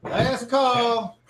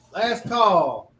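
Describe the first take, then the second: First: High, loud last call shouted to the room; barkeep calling out. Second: Barkeep repeating call. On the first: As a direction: call it out over the bar noise. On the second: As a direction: call it again, firmer and louder. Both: Acted. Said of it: "barkeep's like".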